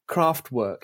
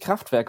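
First: The word is pronounced the English way. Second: The word is pronounced the German way. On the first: It sounds homely, like arts and crafts. "this pronunciation, the English pronunciation" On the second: It means a power plant. "Rather than, because Kraftwerk, of course, is a power plant"

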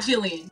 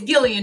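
First: The name begins with a J sound. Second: The name begins with a hard G sound. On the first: The speaker calls it wrong. "not Gillian" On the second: The speaker calls it right. "it's Gillian with a G"

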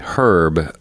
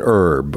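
First: It is said with a pronounced h, British style. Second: It is said with a silent h, American style.

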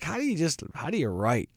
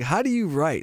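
First: It is said in a put-on character voice. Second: It is said in the speaker's normal voice.

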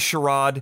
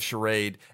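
First: The word is given a European-sounding pronunciation. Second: The word is given its ordinary everyday pronunciation.

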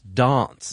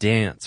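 First: It has a soft, British-style vowel. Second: It has a flat, American-style vowel.

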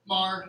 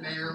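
First: The name sounds like 'mar', one syllable. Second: The name sounds like 'may-er', two syllables. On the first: The speaker calls it right. "Mar, like Bill" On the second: The speaker calls it wrong. "rather than Mayor, like [name]"

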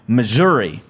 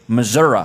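First: The name is said the speaker's own usual way. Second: The name is said the way Missouri locals say it.

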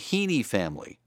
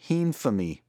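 First: The two words are said separately and clearly. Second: The two words are run together quickly.

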